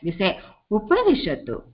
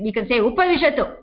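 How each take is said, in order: First: It is said in a polite, respectful tone. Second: It is said in a plain, commanding tone. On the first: The listener is invited with respect. "if you are having a guest" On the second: The listener is given an order without special respect. "If it's a small boy and he's not able to see"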